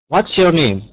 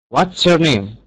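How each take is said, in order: Both takes have the same delivery.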